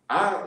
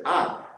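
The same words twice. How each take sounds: First: "I" said firmly and a bit louder; stress on I. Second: Said in the usual way. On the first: Shown as a demonstration. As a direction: lean on the word "I". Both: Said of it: "is emphatic".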